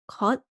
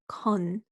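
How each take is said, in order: First: The syllable ends with a t sound. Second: The syllable ends with an n sound. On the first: The speaker calls it wrong. "here it's not cut" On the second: The speaker calls it right. "it's con. So it's a nian sound"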